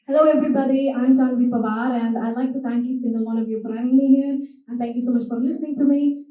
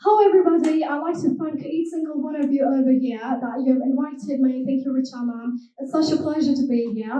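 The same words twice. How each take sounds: First: Scottish accent. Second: British accent. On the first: Thanking the audience for having her, Scottish accent. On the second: Showing the audience her accents, British accent. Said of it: "starting with the British accent first". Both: Shown as a demonstration.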